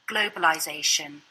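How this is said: The letter I keeps the sound from globalize. "British English continues this same pronunciation in the noun form"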